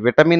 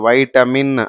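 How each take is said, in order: First: The first syllable has a short 'ih' vowel. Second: The first syllable has an 'eye' vowel. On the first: The speaker calls it wrong. "విటమిన్ అని చదవకూడదు" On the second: The speaker calls it right. "వైటమిన్ అని చదవాలి"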